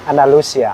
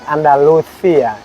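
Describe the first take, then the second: First: It is said in a Mexican Spanish accent. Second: It is said in a Spain Spanish accent. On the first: "Mexico, we say" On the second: "in Spanish from Spain, we say like"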